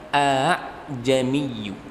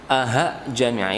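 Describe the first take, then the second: First: The second hamza is softened and light. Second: The second hamza sounds like an h. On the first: The speaker calls it right. "karena ditashil maka" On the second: The speaker calls it wrong. "membacanya seakan-akan menjadi huruf H ... ini salah"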